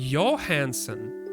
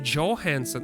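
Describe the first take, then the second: First: The name is said with a Slavic-style sound. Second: The name is said with an English-style sound. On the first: This is how people locally say it. The speaker calls it right. "here people say Johansson" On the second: This is how people locally do not say it. The speaker calls it wrong. "They don't say Johansson"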